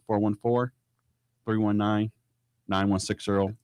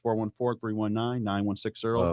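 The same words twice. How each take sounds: First: The number is said slowly. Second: The number is said quickly.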